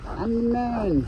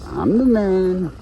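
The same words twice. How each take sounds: First: High squeaky boast; high-pitched. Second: Slow, drawn out swagger; slow low-ish boast. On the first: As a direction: jump way up high. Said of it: "repeated higher". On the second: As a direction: say it slow and proud. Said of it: "repeated in higher voice". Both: Pretend.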